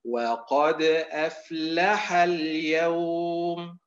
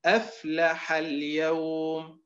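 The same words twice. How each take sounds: First: أفلح اليوم said slowly, stress on the final syllable of أفلح as if أفلحا; slow أفلح اليوم, أفلح stressed at its end; wrong reading. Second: أفلح اليوم said slowly, stress on the first syllable of أفلح; slow أفلح اليوم, أفلح stressed at its start; correct reading. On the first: Teacher showing the wrong reading, slow and careful. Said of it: "ولا نقرأه هكذا". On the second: Teacher showing the correct reading, slow and careful. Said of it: "هذا هو الأداء المستقيم". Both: Shown as a demonstration.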